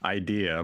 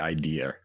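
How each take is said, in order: First: It ends with a plain vowel, no R. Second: It ends with an added R sound.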